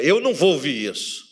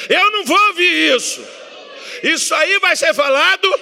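First: Said in the usual way. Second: Much higher, loud faith shout; with more faith. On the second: Shown as a demonstration. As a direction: declare it at full voice. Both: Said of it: "Diga com mais, mais fé".

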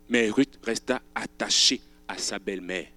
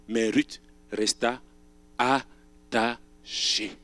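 First: Said in the usual way. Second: "resta attachée" drawn out very slowly; slow stress. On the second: Shown as a demonstration. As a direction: stretch "attachée" syllable by syllable.

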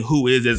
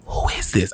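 First: Said in the usual way. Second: Silent, unvoiced mouthing; mouthed whisper. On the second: Asking his dad silently at the party, mouthed whisper. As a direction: whisper it without voice, softer. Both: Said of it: "I'm mouthing".

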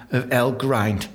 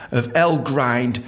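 The two takes are said the same way.

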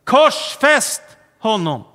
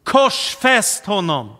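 First: Higher, much louder slow shout of "Korsfäst"; slow full-voiced shout of "Korsfäst honom"; crowd shouting louder. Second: Slow, louder crowd cry of "Korsfäst"; drawn-out call, "Korsfäst" stressed. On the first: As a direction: yell it as the crowd escalating, "Korsfäst" hit hard. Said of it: "ropar folket ännu högre". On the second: Retold or imitated. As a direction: call it out as the crowd demanding death. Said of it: "Då ropar folket".

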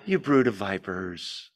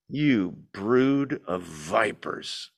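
First: Lightly gentle, kind reading; mock gentle. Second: Slow, low and heavy, dragging each word; slow low rebuke. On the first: Preacher mocking a gentle reading of John, soft and kind. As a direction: say it softly as if kind. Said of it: "with a gentle, kind". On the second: Preacher voicing John's rebuke to the crowd, slow and heavy. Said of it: "There's no way to read this, by the way, with a gentle, kind". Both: Shown as a demonstration.

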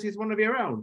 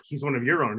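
First: Much higher, hammed-up British accent; bad British accent. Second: Said in the usual way. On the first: English guest reassuring an American Spurs fan, bad British accent. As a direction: put on a poor British fan's accent, pitched high. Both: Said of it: "that was a really bad British accent".

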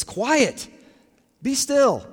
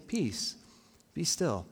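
First: Raised, high-pitched command; loud, emphatic, falling command; forceful imperative. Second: Soft, calm, each phrase falling to a full stop; gentle, settled statement; periods at the end. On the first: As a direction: order it with exclamation marks. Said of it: "There's a lot of force behind them". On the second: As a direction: soothe quietly, pausing between phrases. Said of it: "with, like, periods at the end". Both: Acted.

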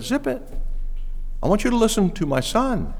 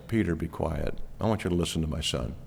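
First: High-pitched cut-in as God the Father; God interrupting. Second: Low, soft, hushed command; God's quiet command. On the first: God the Father silencing babbling Peter, high-pitched interruption. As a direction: cut Peter off, pitched well above usual. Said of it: "He interrupted Peter. And he said". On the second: God the Father telling Peter to listen, low quiet command. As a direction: quietly silence him, voice dropped low. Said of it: "And God the Father says". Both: Acted.

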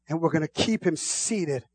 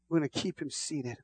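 First: Said in the usual way. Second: Much softer, near a hush. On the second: Real, not acted. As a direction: drop it low and intimate. Hushed repetition.

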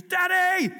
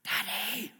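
First: Put-on very high, loud toddler yell; imitated yelling child. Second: Put-on high-pitched toddler calling for Daddy; imitated child calling. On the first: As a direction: shriek for Daddy like an impatient child. Imitates toddler interrupting the interview. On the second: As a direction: call out like a small child, held back. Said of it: "there's a sound that goes".

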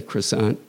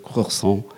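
First: Croissant said the American way, kruh-SAHNT with the t. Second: Croissant said the French way, nasal vowel, no final t. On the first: Host insisting on American croissant over French. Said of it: "I'll speak it like an American". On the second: Host showing the French croissant he dislikes. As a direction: give croissant its French sound, kwa-SAHN. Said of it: "I just don't like to say it the French way". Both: Shown as a demonstration.

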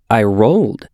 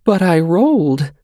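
First: Just states it simply; plain little boy. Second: Put-on high child voice, near tears; a little boy trying not to cry; quivering. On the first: Xander explains himself. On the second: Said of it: "Xander's voice quivered". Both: A narrator's reading.

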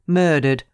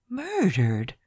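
First: Said in the usual way. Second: A higher, softer, incredulous echo of the word; stunned disbelief. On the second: Acted. Lawyer echoing the secretary's word in soft disbelief. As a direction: repeat "Murdered" as if it can't be true. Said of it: "I could scarcely believe my ears".

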